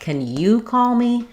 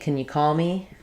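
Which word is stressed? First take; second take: you; call. First: The stress falls on the word you. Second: The stress falls on the word call. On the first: "If I was stressing on it" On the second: "So normally, ... Because call is going to be stressed"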